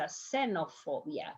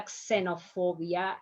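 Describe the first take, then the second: First: Xenophobia starting with plain S; softer "xenophobia" with X as S; correct Spanish pronunciation. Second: Xenophobia starting with KS; wrong pronunciation. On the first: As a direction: say "xenophobia" as "se-no-FO-bia", softly. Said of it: "going to sound like S". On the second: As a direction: say "xenophobia" as "kse-no-FO-bia". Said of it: "It's not a xenophobia". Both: Shown as a demonstration.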